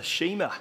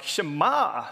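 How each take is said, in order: First: Shema in a plain Kiwi accent. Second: Shema drawn out in a Georgia drawl; Georgia accent. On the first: Preacher giving his first guess at the scripture's name, Kiwi accent. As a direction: say Shema the New Zealand way. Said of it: "in my Kiwi accent". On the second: Preacher correcting his Kiwi pronunciation, mock Georgia accent. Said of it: "like I'm from Georgia". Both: Shown as a demonstration.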